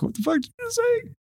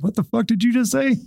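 First: Much higher mock startled retort; startled indignant yelp. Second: Higher, sharp mock comeback; mock indignant snap. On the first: Cop startled by a yell from behind, mock startled retort. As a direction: spin round, caught off guard. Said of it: "you turn around and be like". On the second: Cop snapping back at a rude driver, hammed-up indignation. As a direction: fire back a hammed-up challenge. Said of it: "And I'd be like".

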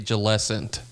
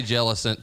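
First: "Jellicent" as juh-LESS-ent; other people's pronunciation. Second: "Jellicent" as JELL-ih-sent; own pronunciation. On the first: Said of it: "I've heard people say Jellicent". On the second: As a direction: stress the first syllable of "Jellicent". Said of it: "But I say Jellicent too". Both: Shown as a demonstration.

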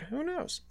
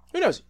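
First: "Who knows?" soft and high, rising at the end; a coy whispered-up "Who knows?"; teasing rise. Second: "who knows?" high and falling, a sing-song; a bouncy, falling "who knows?"; playful repeat. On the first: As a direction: tease it like a secret. Teasing a future episode. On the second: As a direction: toss it off playfully. Repeats the tease. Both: Real, not acted.

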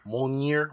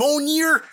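First: Mjolnir said as "monjeer"; mispronounced Mjolnir. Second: Mjolnir shouted high as "MOAN-ner"; corrected Mjolnir. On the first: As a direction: say Mjolnir as "MON-yeer". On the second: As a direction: yell Mjolnir as "moaner", high. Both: Real, not acted. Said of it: "You said it wrong".

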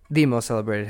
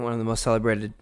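First: "the" stressed as a full "thee"; emphatic "the", marking it as the only one. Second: Said in the usual way. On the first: Real, not acted. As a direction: correct yourself by leaning on "the". Corrects "one of" to "the.

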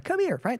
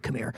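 First: Bright, high, friendly come here; friendly invite. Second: Low, hushed creepy beckon; a low creepy beckoning whisper of come here. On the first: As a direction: call them over warmly and high. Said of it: "That's better, okay?". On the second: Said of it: "That's not what I mean". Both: Shown as a demonstration.

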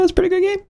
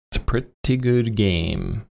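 First: High-pitched squeaky take. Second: Said in the usual way. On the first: Shown as a demonstration.

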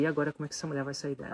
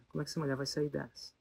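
First: Rushed, worried inner question; fast worried wondering; anxious thought. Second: Softer, sinking repeat of the question; softly repeated worry; quiet worried repeat. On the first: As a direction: blurt the worry out fast. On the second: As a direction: mutter it again to yourself. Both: Retold or imitated. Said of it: "e eu falei".

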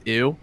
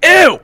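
First: Said in the usual way. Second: High, loud disgusted yell. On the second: Retold or imitated. Cook yelling at a coworker at the window, disgusted shriek. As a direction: shriek it in revulsion. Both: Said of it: "all I would yell at her".

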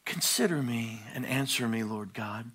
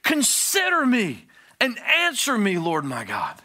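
First: Mild, lowered casual read; imitating a sleepy coffee-time reading; soft, unbothered morning-coffee prayer; polite morning reading. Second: Loud, high desperate cry; shouting, pleading prayer with a high pitch; screaming plea. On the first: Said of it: "with our little cup of coffee and we go". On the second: Shown as a demonstration. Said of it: "This is screaming".

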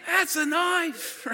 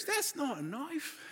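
First: High, very drawn-out Australian bushman imitation; playful Aussie hero's boast; Nick Dundee. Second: Soft, slow, high Australian bushman imitation; hushed playful Aussie film quote; Nick Dundee. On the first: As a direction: stretch the catchphrase out proudly. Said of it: "And he's like". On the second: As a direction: toss off the catchphrase quietly, stretched out. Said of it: "All of a sudden he goes".

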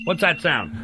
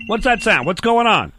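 First: Said in the usual way. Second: Higher and louder, startled; suddenly alarmed, demanding. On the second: Real, not acted. Host startled by a noise during the radio show, alarmed and louder.

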